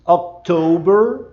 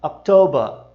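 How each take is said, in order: First: October with a curled R, rising; October americano; American October. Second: October ending in /ɐ/ with no R; October britânico; British October. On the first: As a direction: bend the R in October. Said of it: "e entorta aqui o R". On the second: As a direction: drop the R of October. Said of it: "Já o britânico costuma dizer October". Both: Shown as a demonstration.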